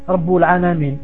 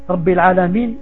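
First: The first word ends in a u vowel. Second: The first word ends in an i vowel. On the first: The speaker calls it wrong. "tu dis, Rabbul Alamin ... au lieu de Rabbi" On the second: The speaker calls it right. "au lieu de dire"

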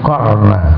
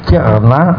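First: The first syllable has an 'a' vowel. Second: The first syllable has an 'i' vowel. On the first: This is the reading of Nafi and Asim. "qafnya di fathah" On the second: This is the commonly known reading. "Ada yang membaca kirna"

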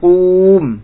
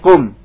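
First: The vowel is long, keeping the waw. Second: The vowel is short, the waw dropped. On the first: The speaker calls it wrong. "bukan kum" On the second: The speaker calls it right. "tapi kum ... dibuanglah huruf ilahnya"

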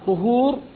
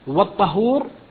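First: The first vowel is a 'u' sound. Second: The first vowel is an 'a' sound. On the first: It means the act of purifying. "طهور فعل التطهر" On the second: It means the thing used for purifying. "والطهور ما يتطهر به"

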